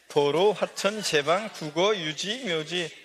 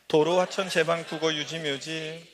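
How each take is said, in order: First: The list is read at a slow pace. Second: The list is read at a fast pace. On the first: "다 같이 천천히 읽어봅니다" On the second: "더 빨리요"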